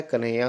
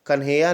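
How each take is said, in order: First: कन्हैया as ka-nhaiya, very light h; correct form shown. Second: कन्हैया as kan-heya, n and h together; wrong form shown. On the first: Teacher correcting students, कन्हैया as ka-nhaiya. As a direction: run the n straight on in कन्हैया. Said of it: "कन्हैया होता है". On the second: Teacher showing the rejected form, कन्हैया as kan-heya. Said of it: "कन्हैया नहीं होता है". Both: Shown as a demonstration.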